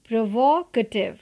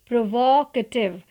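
No difference in how they are said.

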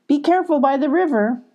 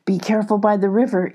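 First: Put-on higher, brighter girl calling after her friend; caring call. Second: Quick, hushed chipmunk warning. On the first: Abby calling after Molly, higher girl's voice. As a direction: send her off with a gentle caution. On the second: Acted. Chips the chipmunk warning Molly, quick and hushed. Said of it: "Chips warned".

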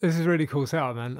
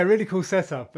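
First: Fallout bartender ghoul voice. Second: Said in the usual way. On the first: Acted. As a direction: slip into the wasteland ghoul. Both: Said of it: "I'll drop my ghoul voice for now".

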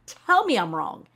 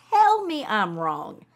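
First: "Tell me I'm wrong" as a loud dare; emphatic challenge. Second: "Tell me I'm wrong" said slowly and loudly, TELL leaned on; drawn-out challenge, each word weighted; slow, deliberate, louder dare; slow emphatic dare. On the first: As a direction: TELL punched, louder. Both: Real, not acted. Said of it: "I'm not wrong".

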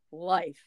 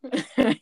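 First: "life" with a full long-i glide; plain Northern "life"; Northern pronunciation. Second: Southern "Laugh" for life, vowel flattened to lahf; higher, teasing Southern-accent "Laugh"; imitated Southern accent. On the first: Shown as a demonstration. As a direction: say "life" the Northern way, vowel closing to ee. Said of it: "as if I were saying it". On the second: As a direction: mimic a Southerner's glideless "Laugh". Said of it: "She'd be like".

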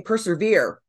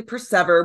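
First: "persevere" ending in a long "veer"; "persevere" the everyday way, rhyming with "severe"; mispronounced word. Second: "persever" stressed on SEV, rhyming with "never"; "persever" with a short e in the middle, no "veer"; metrical pronunciation. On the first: Retold or imitated. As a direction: say "persevere" with the stress on the final syllable, veer. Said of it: "had been saying persevere". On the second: Shown as a demonstration. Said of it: "it's actually persever with the meter".

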